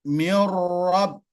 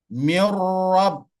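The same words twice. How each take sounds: The two takes are said the same way.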